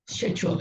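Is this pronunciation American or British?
British. It is said with a British accent. "in British"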